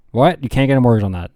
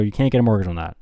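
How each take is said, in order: First: Louder, mock-shocked questioning; incredulous echo. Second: Said in the usual way. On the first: Friend hears there is no mortgage for land, incredulous. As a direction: play a friend taken aback.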